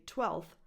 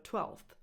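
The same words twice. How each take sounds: First: "twelfth" said as "twelth"; l straight into th in "twelfth"; dropped F. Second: "twelfth" with f and th both sounded; full f-th ending on "twelfth"; F kept. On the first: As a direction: skip the f in "twelfth". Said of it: "why can't you say twelfth". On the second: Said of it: "instead of twelfth". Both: Shown as a demonstration.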